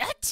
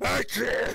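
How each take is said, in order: First: It is a dainty, effeminate sneeze. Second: It is a deep, manly sneeze.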